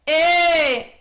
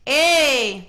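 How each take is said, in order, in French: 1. La voyelle est plus douce, plus ronde et plus couverte. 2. La voyelle est vive, ouverte et tranchante. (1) "on va le transformer en curving en transformant la voyelle" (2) "un vrai et ... Ça, c'est ce qu'on pourrait appeler edge"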